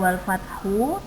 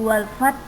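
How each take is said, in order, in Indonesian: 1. Kata itu berakhir dengan vokal u yang ditambahkan. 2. Kata itu berakhir dengan h ringan yang berdesah. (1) "bukan wal fathu" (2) "harus ada hembusan nafas karena ada huruf h"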